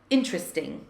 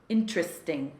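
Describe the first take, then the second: First: It is squeezed into three syllables. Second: The same.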